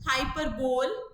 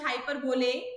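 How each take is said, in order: First: The word ends on a bare l sound. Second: The word ends on an ay vowel sound. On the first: "some teachers pronounce as हाइपरबोल" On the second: "some as हाइपरबोले"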